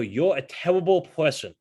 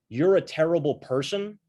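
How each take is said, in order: First: It is said in an Elmer Fudd voice. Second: It is said in his normal voice.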